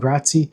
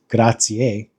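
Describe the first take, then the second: First: The final vowel sound is dropped. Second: The final vowel sound is clearly pronounced. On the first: The speaker calls it wrong. "is that a more formal way of saying grazie?" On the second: The speaker calls it right. "it's actually pronounced grazie"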